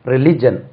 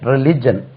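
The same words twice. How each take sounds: No difference in how they are said.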